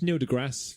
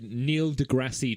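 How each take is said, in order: First: The name is said plainly, with no 'ee' ending. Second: The name is said like 'Degrassi', ending in 'ee'. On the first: The speaker calls it right. "it's just Neil deGrasse" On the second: The speaker calls it wrong. "I said Neil deGrasse Tyson. ... I think I'm thinking of Degrassi"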